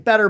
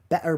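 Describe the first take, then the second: First: It is said in a Kansas accent. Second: It is said in an English accent. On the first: "here in Kansas, we say" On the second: "in England, they say a version of"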